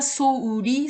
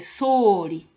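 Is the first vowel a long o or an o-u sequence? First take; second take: o-u; long o. First: The first vowel is an o-u sequence. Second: The first vowel is a long o. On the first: The speaker calls it wrong. "Ce n'est pas souli" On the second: The speaker calls it right. "c'est soli"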